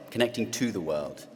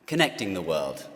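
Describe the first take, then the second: First: "to" picked out as the key word; stress on "to". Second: Said in the usual way. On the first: Real, not acted. Speaker refining the third theme for students, stress on "to". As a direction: lean on the added word "to". Rewords it, adding "to.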